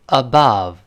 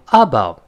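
First: Above with a light first syllable and stressed BOVE; weak a-, strong -bove in above; stress on second syllable. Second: Above wrongly stressed A-bove, weak ending; stress on first syllable. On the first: Teacher has students read along, second-syllable stress on above. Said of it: "轻读，第二个音节重读". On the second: Teacher shows an impossible reading, stress on first syllable of above. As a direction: hit the A of above, let the rest drop. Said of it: "前面是倒V字的，后面是倒E字的". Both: Shown as a demonstration.

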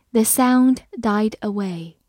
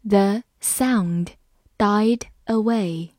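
First: Said in the usual way. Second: Slow, broken into short chunks; measured model reading for learners. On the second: Shown as a demonstration. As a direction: read slowly, pausing mid-sentence. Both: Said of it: "我们慢读一遍".

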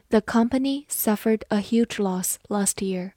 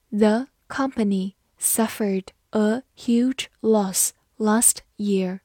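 First: Said in the usual way. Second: Slow, careful read of each word. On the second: Shown as a demonstration. Teacher reads a sentence slowly for the class, slow and clear. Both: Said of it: "好，慢读一遍".

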